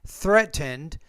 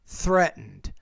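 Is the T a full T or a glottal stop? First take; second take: full T; glottal stop. First: The T is pronounced as a full T. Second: The T is replaced by a glottal stop. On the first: The speaker calls it wrong. "instead of saying" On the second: The speaker calls it right. "we don't really pronounce that T"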